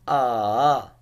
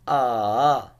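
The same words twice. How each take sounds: First: The pitch dips down and then rises. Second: The same.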